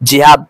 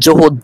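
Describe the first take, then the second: First: The word begins with an i vowel. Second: The word is said with u vowels. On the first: "অনেকেই ভুল করে" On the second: "অনেকেই ভুল করে"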